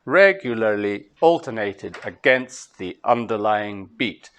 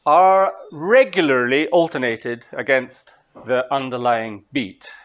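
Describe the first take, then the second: First: Slow even pulse, repeated; rhythmic stress demo. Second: Slow, evenly beat-marked syllables; regularly alternated stressed on the beat; rhythmic stress demo. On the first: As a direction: Regularly hit hard, slow, beat-marked syllables. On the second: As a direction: tap out each stress on the beat. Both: Shown as a demonstration. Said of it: "stressed and unstressed syllables".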